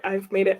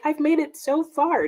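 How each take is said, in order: First: Said in the usual way. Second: High, bright little boast; proud announcement. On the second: Retold or imitated. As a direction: announce it like a small victory. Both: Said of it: "I was gonna be like".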